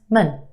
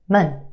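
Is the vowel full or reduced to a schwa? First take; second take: schwa; schwa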